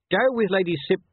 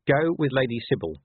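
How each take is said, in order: First: High, loud command cut short; interrupted order. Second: Firm order, only slightly raised; repeated order. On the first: Officer orders corporal over the crowd, loud, broken off. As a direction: call out an order and break off. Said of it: "He stopped because of the rising hubbub". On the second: Officer repeats his order to the corporal, firm and controlled. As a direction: restate the order evenly and completely. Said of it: "he repeated". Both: A narrator's reading.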